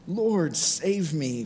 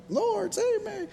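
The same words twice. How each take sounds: First: Said in the usual way. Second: Mock-panicked falsetto plea, extremely high; falsetto cry. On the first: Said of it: "Falsetto, I'm not doing it this morning". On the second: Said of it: "Falsetto, I'm not doing it this morning, but".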